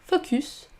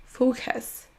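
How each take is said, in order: First: Focus with a French u; French-style focus. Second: Focus with a schwa in the second syllable, slowly; FO-kuhs said slow and clear; English focus. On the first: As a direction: learner focus. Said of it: "On ne dit pas focus". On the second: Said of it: "mais focus". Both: Shown as a demonstration.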